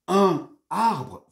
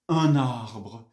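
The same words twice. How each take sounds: First: The two words are said separately without linking. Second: The n sound links smoothly into the next word. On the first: The speaker calls it wrong. "ich sage nicht un Arbre, was sich ja völlig furchtbar anhört" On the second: The speaker calls it right. "das fließt ganz schön"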